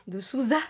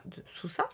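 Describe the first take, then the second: First: Souza with a voiced z; corrected pronunciation. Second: Souza with a hissed s sound; mispronounced name. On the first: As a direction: correct it to Souza, buzzing the z, louder. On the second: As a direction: say Souza as "soussa", unsure. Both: Real, not acted.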